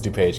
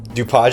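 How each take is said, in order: First: The name is pronounced the English way. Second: The name is pronounced the French way.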